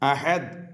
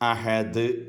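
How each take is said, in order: First: The final consonant is cut short without echo. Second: The final consonant is released with an echoing bounce. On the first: The speaker calls it wrong. "അഹദ് എന്ന് പറയാൻ പറ്റില്ല" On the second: The speaker calls it right. "മറിച്ച് അഹദ് എന്ന് പറയണം"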